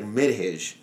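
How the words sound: The name is said with an Arabic pronunciation. "in Arabic, it's like you can pronounce it properly"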